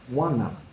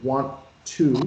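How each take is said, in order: First: The words are blended into one short form. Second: Both words are said fully with the T sound. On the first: "we don't make the T sound" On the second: "So instead of want to"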